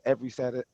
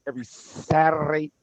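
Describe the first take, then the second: First: It is said in his own plain way. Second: It imitates the way the host says it.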